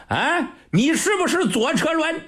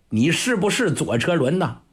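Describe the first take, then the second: First: Much higher, laughing mock question; laughing mockery. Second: Said in the usual way. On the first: Old general mocks the marshal, asking again with a high laugh. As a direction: toss it back with a mocking laugh.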